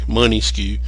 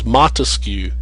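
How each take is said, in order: First: The name begins with a two-syllable 'money' sound. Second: The name begins with a one-syllable 'mon' sound. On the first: The speaker calls it wrong. "they mispronounce it grossly" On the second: The speaker calls it right. "But his name is Montesquieu"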